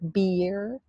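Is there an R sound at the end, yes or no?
yes. The word ends with a clear R sound. This is the American pronunciation. "Let's compare American and British English"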